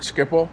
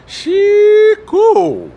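First: Said in the usual way. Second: Schiphol sung out high, loud, SHEE-ku; grand Dutch pronunciation. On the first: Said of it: "that's the name of the Amsterdam airport". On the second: Shown as a demonstration. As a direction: Schiphol as a long dramatic SHEE-ku. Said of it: "does the very name smack of adventure".

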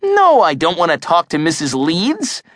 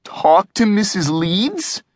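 First: Higher-pitched, mildly exasperated denial; exasperated kid's comeback; annoyed refusal. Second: Slow, high-pitched cringing question; mock-dreading question. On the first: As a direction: refuse the suggestion, a touch irritated. Annoyed answer to cringing question. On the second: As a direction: draw it out warily, rising at the end. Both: A narrator's reading.

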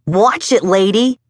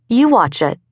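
First: Put-on kid's higher-pitched warning yell; mild yell. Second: High-pitched YOU, falling away; stress on YOU. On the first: Kid on a bike to woman in his path, mild yell. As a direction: call out a mild, high warning. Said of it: "he yelled". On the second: Woman holding her ground to kid, retort stressing YOU. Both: A narrator's reading.

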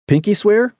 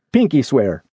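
First: "Pinky swear" high, rising at the end; questioning PINKY SWEAR. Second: "Pinky swear" at usual pitch, falling to the end; confirming PINKY SWEAR. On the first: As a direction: ask "Pinky swear" in a high, hopeful lift. Asks for promise, then answered. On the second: Confirms the promise. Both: Acted.

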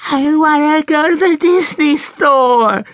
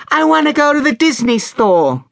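First: Very high, loud, drawn-out wail; little girl bawling her demand slowly; full child tantrum. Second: Put-on very high child's demand; little girl insisting, pitched right up; high, pestering child voice; insistent little girl. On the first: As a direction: stretch every word in a bratty shriek. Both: A narrator's reading.

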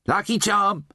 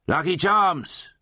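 First: High, cheery sales call. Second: Drawn-out, high vendor's call; hawker's cry. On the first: Slaughterer offering charm to clodder-trog, high cheery call. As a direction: pipe up cheerily to a passing customer. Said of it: "the slaughterer said cheerily". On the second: Slaughterer hawking talismans in Undertown, drawn-out high cry. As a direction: cry your wares high, stretching it out. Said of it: "he cried". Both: Acted.

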